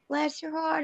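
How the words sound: It is said in a warm, sincere tone.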